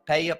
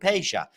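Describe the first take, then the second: First: The name is said without an Argentinian accent. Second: The name is said in an Argentinian Spanish accent. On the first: "or Peja perhaps I should say" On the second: "in an Argentinian Spanish accent"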